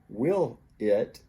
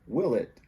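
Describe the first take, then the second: First: The two words are said separately. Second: The l sound links into the next word. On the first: "will it becomes" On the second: "becomes will it"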